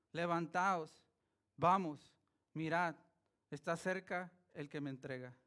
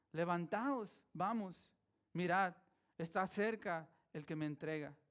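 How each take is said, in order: The two takes are said the same way.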